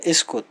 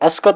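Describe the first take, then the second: First: The word is said with 'i' and 'u' vowels. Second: The word is said with 'a' vowels throughout. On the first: This is the standard form of the word. "चुप रहने को अरबी में इस्कुत बोला जाता है" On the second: This is the colloquial form of the word. "ठेठ में बोलेंगे तो अस्कत बोलेंगे"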